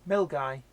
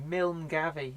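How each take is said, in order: First: It is said the local Scottish way, 'Mil-guy'. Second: It is said the non-Scottish way, spelling-based.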